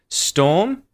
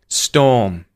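First: The voice rises on the word. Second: The voice falls on the word. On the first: It ends a question. "rising intonation" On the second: It ends a statement. "descending intonation"

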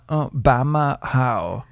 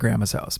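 First: Sounds are dropped, giving 'Bama how'. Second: Both words are pronounced fully and clearly. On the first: This is how the child actually says it. "But she'll say, I want Bama how is what she'll say" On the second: This is what the child means to say. "basically she's saying"

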